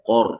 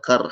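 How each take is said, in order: First: The r sound is heavy and thick. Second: The r sound is light and thin. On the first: The speaker calls it right. "roh tu tebal" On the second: The speaker calls it wrong.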